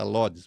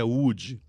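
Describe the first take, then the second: First: The name begins with an L sound. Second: The name begins with a vowel sound. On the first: This is the English-based version people use. The speaker calls it wrong. "por causa da tradução em inglês, então fala Lodes" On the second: This is the actual local pronunciation. The speaker calls it right. "mas a pronúncia é Ude"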